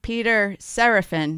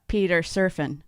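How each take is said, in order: First: The surname is said like Seraphin. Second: The surname is said like Surfin. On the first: The speaker calls it right. "It's like Peter Seraphin" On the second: The speaker calls it wrong. "not Peter Surfin"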